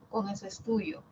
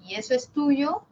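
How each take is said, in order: First: "tuyo" falling, a flat statement; falling statement tune. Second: "tuyo" rising at the end, a question; rising question tune. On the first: Teacher contrasting tones for the class, falling statement on "tuyo". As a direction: state "con eso es tuyo" with the pitch dropping on "tuyo". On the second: Teacher contrasting tones for the class, rising question on "tuyo". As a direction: ask "y eso es tuyo" with the pitch climbing on "tuyo". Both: Shown as a demonstration. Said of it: "Cambia la entonación o el tono".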